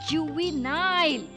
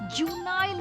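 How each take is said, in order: First: The middle 've' syllable is said fully. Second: The middle 've' syllable is left out. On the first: The speaker calls it right. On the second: The speaker calls it wrong. "जुनाइल नहीं"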